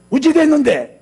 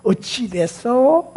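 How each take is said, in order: First: High, loud, gruff demand; mock-angry Gyeongsang-style demand; angry-sounding question. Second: 어찌 됐어 slow, lifted at the end; soft rising ending. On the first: Preacher showing how not to ask, angry-sounding question. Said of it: "화가 나갖고 말하는 것처럼 들려요". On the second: Preacher showing the gentle way to ask, 어찌 됐어 rising softly. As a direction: draw out 어찌 됐어 and raise the last syllable. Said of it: "끝을 좀 올려줘". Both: Shown as a demonstration.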